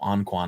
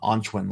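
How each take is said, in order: First: The name is said with American English sounds. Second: The name is said with Chinese sounds. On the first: "what a lot of us here in the in the states call" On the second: "like the the Chinese pronunciation of it"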